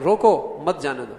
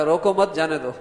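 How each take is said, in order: First: روکو set apart, then مت جانے دو; pause after روکو. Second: روکو مت joined, then جانے دو; misread phrasing. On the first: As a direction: break between روکو and مت, meaning stop him. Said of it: "کتنا فرق ہو جائے گا". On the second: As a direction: break after مت, so it means let him go. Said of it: "وہ پڑھتا ہے". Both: Shown as a demonstration.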